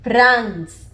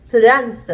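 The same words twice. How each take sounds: First: "France" said as one-syllable pranz; reduced France. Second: "France" said as three syllables pu-dans; Korean France. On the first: Teacher showing the stripped sound, pranz. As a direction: clip "France" to prans with no extra vowel. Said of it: "we would have". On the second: Teacher giving the Korean form, pu-dans. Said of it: "three syllables for the one syllable France". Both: Shown as a demonstration.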